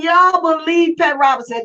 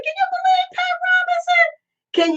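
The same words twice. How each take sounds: First: Said in the usual way. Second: High, incredulous squeal of disbelief; can you believe it, voice shooting way up. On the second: Real, not acted. Asking viewers about Pat Robinson, in shocked high disbelief.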